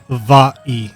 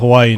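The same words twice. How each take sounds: First: The middle consonant is a V sound. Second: The middle consonant is a W sound. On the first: This is the original correct form. "the correct pronunciation of Hawaii is actually Hawaii, uh, Hawaii, with a V" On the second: This is the everyday easier form. "but we just call it Hawaii now. It's it's easier to pronounce"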